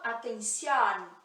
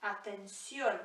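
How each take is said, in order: First: Atención with an open o at the end; the wrong way, atención with a wide o. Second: Atención with a closed o. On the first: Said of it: "Eu não falo". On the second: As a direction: finish atención on a tight closed o. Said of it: "o O sempre fechadinho". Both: Shown as a demonstration.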